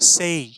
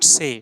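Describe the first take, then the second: First: The vowel glides from e toward i. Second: The vowel is a single plain e sound. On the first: The speaker calls it right. "সেই, সেই" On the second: The speaker calls it wrong. "Not সে। It's not the correct way of pronunciation."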